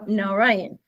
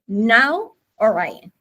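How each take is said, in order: First: The two parts run together smoothly without a break. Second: The two parts are said separately with a break.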